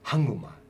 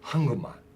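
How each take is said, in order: First: The k sound blends into a nasal before m. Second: The k sound blends into a nasal before m.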